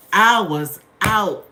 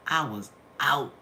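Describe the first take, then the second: First: Slow, much louder repeat; loud drawn-out emphasis. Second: Said in the usual way. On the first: Real, not acted. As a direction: stretch it out and hit it hard. Repeats the line for effect.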